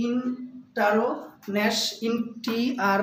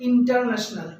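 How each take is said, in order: First: "ইন্টারন্যাশনাল" broken slowly into separate syllables; slow, separated syllables of "ইন্টারন্যাশনাল". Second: Said in the usual way. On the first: Shown as a demonstration. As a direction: sound out ইন, টার, ন্যাশ one at a time. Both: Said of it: "এখানে চারটা syllable আছে".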